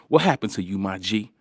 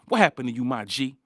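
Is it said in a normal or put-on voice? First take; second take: normal; put-on. First: It is said in his normal voice. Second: It is said in an imitated commenter's voice.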